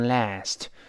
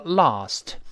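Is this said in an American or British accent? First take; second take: American; British. First: The vowel is a front flat sound. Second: The vowel is a back open sound. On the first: "美音中啊变成哎读成last" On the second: "英国人读成lost"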